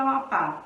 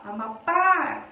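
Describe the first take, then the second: First: Said in the usual way. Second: "Amapá" with a long, drawn-out PÁ; stress on last syllable. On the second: Shown as a demonstration. Teacher asking for the sílaba forte, "Amapá" with PÁ held long. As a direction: stretch the final PÁ of "Amapá". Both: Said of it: "Qual é a sílaba forte".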